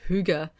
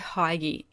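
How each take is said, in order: First: The first syllable sounds like hoo. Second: The first syllable sounds like hug. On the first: It feels like a war cry. "sounds more like, like a war cry" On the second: It feels cozy. "it sounds a little bit more um, cozy to me... Hygge is kind of a hug"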